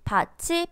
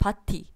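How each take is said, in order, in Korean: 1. 마지막 음절은 ch 소리로 시작합니다. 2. 마지막 음절은 t 소리로 시작합니다. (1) "츠 소리로 읽고 있습니다" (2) "라고 바보처럼 읽지 않죠"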